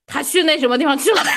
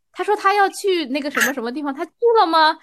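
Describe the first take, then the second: First: Higher-pitched, brusque query; contrasting questioning tone. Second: Higher-pitched, sweetly gentle question. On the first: Rereading the misdirected message the other way, pointed questioning tone. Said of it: "这也是一种语气". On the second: Rereading a misdirected message to show a kind reading, gentle tone. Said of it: "他要是用一种温柔的语气说". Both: Shown as a demonstration.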